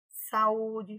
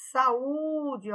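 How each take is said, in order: First: Said in the usual way. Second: Ú in "Saúde" held long as its own syllable; strong separate vowel. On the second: Shown as a demonstration. Teacher shows a vowel becoming a syllable, drawn-out U in "Saúde". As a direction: stretch the middle U of "Saúde". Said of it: "ele virou uma sílaba forte".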